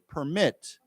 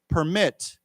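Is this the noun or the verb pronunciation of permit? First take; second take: verb; verb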